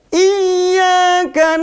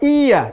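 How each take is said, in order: First: The y sound is held and doubled. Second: The y sound is short and single. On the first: The speaker calls it right. "tapi ada penekanan" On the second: The speaker calls it wrong. "bukan iya"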